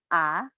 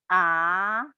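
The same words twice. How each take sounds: First: The rising vowel is cut short abruptly. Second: The rising vowel is drawn out too long. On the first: The speaker calls it right. "langsung naik, stop" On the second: The speaker calls it wrong. "nggak boleh diterusin ... terlalu panjang"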